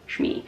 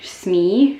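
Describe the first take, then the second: First: The name begins with an sh sound. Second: The name begins with a plain s sound. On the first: The speaker calls it right. "Shmi, right?" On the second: The speaker calls it wrong. "Smee is the pirate"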